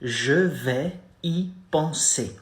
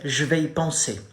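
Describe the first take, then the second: First: Je vais y penser drawn out slowly, each syllable separated; slow teaching model; slow demo. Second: Je vais y penser said at normal speed; French at normal pace; natural demo. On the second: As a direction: say je vais y penser as in real chat. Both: Shown as a demonstration. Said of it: "You say".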